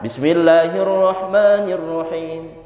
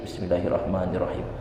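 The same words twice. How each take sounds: First: It is said loudly, in a full voice. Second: It is said softly, in a low voice. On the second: "sir dilirihkan kecil"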